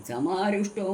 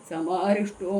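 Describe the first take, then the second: No difference in how they are said.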